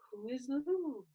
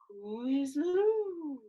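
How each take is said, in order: First: The phrase is said at a natural speaking pace. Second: The phrase is slowly stretched out and drawn out.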